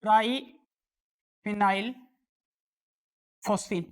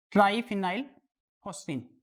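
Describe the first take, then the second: First: Each syllable drawn out slowly; slow, careful name dictation; slow naming. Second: Said in the usual way. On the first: Shown as a demonstration. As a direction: spell the name out slowly for students. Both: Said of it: "इसका नाम होता है".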